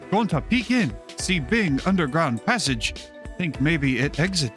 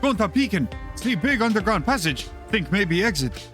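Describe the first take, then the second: First: It is said at a normal pace. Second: It is said very fast.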